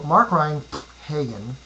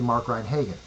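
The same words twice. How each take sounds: First: A made-up sound is inserted between Ryan and Hagen. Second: The name runs straight on with no added sound. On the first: The bullet point is given its own sound. "I'm just going to use a sound" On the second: The bullet point is treated as a dash. "just pronounce it as if it were a dash"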